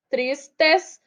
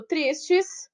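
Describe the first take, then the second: First: "tristes" split as tris-tes with a full "tes"; final syllable sounded out. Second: Said in the usual way. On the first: Shown as a demonstration. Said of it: "A última é o tes". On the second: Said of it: "penúltima".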